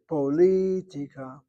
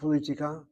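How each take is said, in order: First: The stress is on the second syllable. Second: The stress is not on the second syllable. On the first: The speaker calls it right. "Poli on the second syllable" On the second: The speaker calls it wrong. "Not politica"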